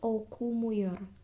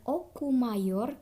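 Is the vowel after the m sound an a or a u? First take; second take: u; a. First: The vowel after the m is u. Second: The vowel after the m is a. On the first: The speaker calls it right. "di sini harusnya U" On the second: The speaker calls it wrong. "dari oku mayor"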